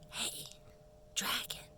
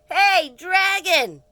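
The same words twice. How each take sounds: First: It is whispered very softly. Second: It is shouted very loudly.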